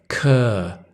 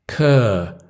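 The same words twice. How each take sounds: The two takes are said the same way.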